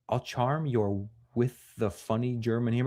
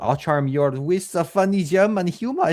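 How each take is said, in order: First: It is read in the speaker's ordinary accent. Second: It is read in a put-on German accent.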